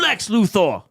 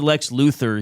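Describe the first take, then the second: First: The stress falls on the last syllable of Luthor. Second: The stress falls on the first syllable of Luthor. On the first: "He'd really emphasize the or" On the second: "he wouldn't say Lex Luthor"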